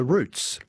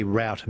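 First: Routes said like "roots"; root pronunciation. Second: Route said like "rowt"; route with an ow vowel, as in shout; rout pronunciation. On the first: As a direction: say routes with an oo vowel. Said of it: "So we pronounce it as a route manager". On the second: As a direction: say route to rhyme with out. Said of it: "we pronounce it as". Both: Retold or imitated.

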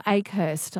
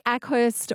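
First: AKEHURST with a long "a" as in "ache"; second pronunciation option. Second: ACKHURST with a short "a" as in "back"; first pronunciation option. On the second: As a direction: say Ackhurst, opening like "ack". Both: Shown as a demonstration. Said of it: "I forgot to get pronunciation of it".

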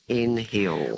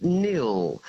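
First: "N Hill" slowly split into two words; slow, two-part "N Hill" with H voiced; wrong town pronunciation. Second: "Nil" as a single syllable with silent H; one-syllable "Nil", like the word for zero; correct town pronunciation. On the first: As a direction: sound the H in "N Hill" to show the mistake. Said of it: "it's not N Hill". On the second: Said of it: "it's called Nil". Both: Shown as a demonstration.

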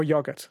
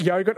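First: "yogurt" said "YOG-ut"; short o in "yogurt", as in dog. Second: First "yogurt" said "YOH-gut"; long o in "yogurt", as in go. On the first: Host offers the other choice, short-o "yogurt". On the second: Host offers caller a choice, long-o "yogurt". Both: Shown as a demonstration. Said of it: "what, yogurt or yogurt".

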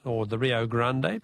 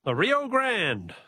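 First: "Rio Grande" in Spanish, ending GRAN-deh, slower; "Rio Grande" pronunciado en español; Spanish pronunciation. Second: "Rio Grande" said the English way, GRAND rhyming with hand; plain English "Rio Grande", no final vowel; English reading of "Rio Grande"; Rio Grande anglicized. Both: Shown as a demonstration. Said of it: "its Spanish pronunciation".

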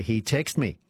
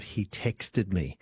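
First: "texted" said as one syllable, "text", with no -ed ending; texted cut to "text". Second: "texted" in two syllables, tex-ted, slowly; full -ed on texted. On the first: Host quoting Martin's pet hate, "texted" said as "text". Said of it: "it does irritate me when people say". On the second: Host giving Martin's correct form, "texted" with full ending. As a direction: sound the -ed ending of "texted" clearly, slower and measured. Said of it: "instead of". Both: Shown as a demonstration.

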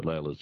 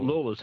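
First: "Layla" said with an ay vowel; "Layla", the alternative way, lay-la; other pronunciation. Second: "Lawler" said with an aw vowel; "Lawler", first syllable like law; proper local pronunciation. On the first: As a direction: say "Layla" with first syllable like lay. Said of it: "the other way". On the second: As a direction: say "Lawler" to rhyme with taller. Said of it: "how it's supposed to be pronounced". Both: Shown as a demonstration.

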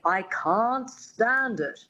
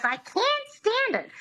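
First: Slow, careful Mid-Atlantic "I can't stand it" with a broad open "can't"; the coach demonstrating the refined "can't stand it"; coach's proper Mid-Atlantic. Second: Very high, grating "I can't stand it" with a flat nasal "can't"; the starlet parroting her coach badly; Lina Lamont squeak. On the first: Retold or imitated. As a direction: model the line like an elocution teacher, slowly. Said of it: "her dialect coach says". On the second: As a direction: screech the line back like the starlet mangling it. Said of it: "And she goes".

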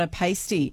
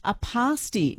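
First: PASTY said "pay-stee". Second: PASTY said "pah-stee"; pasty with a long A. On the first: Radio host giving the rejected version, AY-sound PASTY. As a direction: say PASTY like paste plus ee. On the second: Radio host reading a listener's menu, long-A PASTY. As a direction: say PASTY with an open "ah". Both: Shown as a demonstration. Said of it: "not a pasty".

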